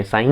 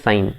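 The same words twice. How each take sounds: First: "साइन" with the G sounded, like sa-ing-n; wrong pronunciation demo. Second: "साइन" with a silent G; correct pronunciation demo. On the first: Teacher showing students the mistake, G heard in "साइन". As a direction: voice the silent G in "साइन". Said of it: "साइन नहीं पढ़ते". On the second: Teacher correcting the mistake, "साइन" without G. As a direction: end "साइन" on a simple N. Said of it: "इसको हम बोलते हैं साइन". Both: Shown as a demonstration.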